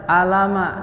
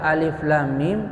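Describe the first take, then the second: First: The letters are read as joined voweled syllables. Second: Each letter is read by its full name. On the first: The speaker calls it wrong. "Misalnya orang baca alama" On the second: The speaker calls it right. "harusnya dibaca alif lam mim"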